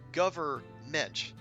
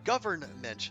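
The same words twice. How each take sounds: First: It is said without the n sound before m. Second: It is said with the n sound before m. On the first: The speaker calls it wrong. "but it's spelled G O R G O V E R M E N T" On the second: The speaker calls it right. "not government"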